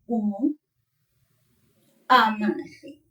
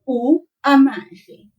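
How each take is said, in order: First: It is said with a break between words. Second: It is said with no break between words.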